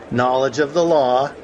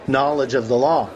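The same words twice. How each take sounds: First: Said in the usual way. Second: Chuckling aside. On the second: Real, not acted.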